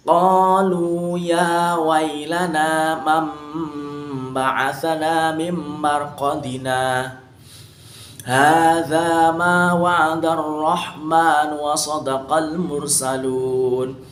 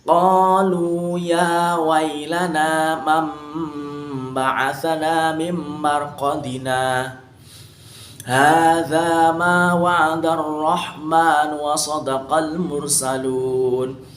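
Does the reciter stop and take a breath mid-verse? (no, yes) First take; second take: yes; yes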